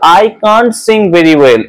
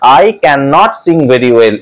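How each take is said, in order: First: The negative is squeezed into one syllable. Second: The negative is said as two separate syllables. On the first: "spoken ইংলিশের সময় কান্ট কথাটা উচ্চারণ করি" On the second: "সেটার মানে"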